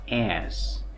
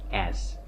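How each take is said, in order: First: The vowel is full and clear. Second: The vowel is short and reduced. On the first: The speaker calls it wrong. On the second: The speaker calls it right.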